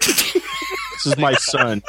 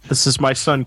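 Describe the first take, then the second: First: Slow, much higher mock proud-father voice. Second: Said in the usual way. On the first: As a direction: present the son with hammed-up pride.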